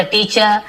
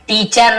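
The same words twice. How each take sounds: First: "टीचर" ending in "chuh", no r; silent final r. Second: "टीचर" with a full final r; final r pronounced. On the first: Teacher correcting for students, "टीचर" with final r silent. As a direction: drop the last r of "टीचर". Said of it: "र थोड़ा silent होता है". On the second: Teacher showing what not to say, "टीचर" with final r sounded. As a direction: end "टीचर" on a clearly sounded r. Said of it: "ना बोलते". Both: Shown as a demonstration.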